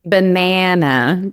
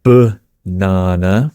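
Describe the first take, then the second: First: Banana with a flat a as in cat, said slowly; American banana. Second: Banana with a long ah in the middle, said slowly; British banana. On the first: Asked how Americans say it, slow flat-a banana. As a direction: give banana the short a of cat. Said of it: "How do you say it?". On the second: Teaching the British word, slow banana with ah. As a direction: stretch the middle of banana, ah sound. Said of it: "in the British accent, it is banana". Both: Shown as a demonstration.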